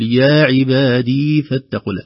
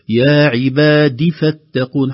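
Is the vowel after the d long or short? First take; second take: long; short. First: A long ee vowel follows the d. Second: A short i vowel follows the d. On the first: The speaker calls it wrong. "الدال ليس بعدها يا، لا نقول" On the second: The speaker calls it right. "حركة فقط"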